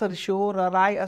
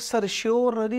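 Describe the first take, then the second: First: The word ends with an 'eye' sound. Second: The word ends with an 'ee' sound. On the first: "काही ठिकाणी सर्शिओरराय असतं" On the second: "काही ठिकाणी याचा उच्चार सर्शिओररी असतं"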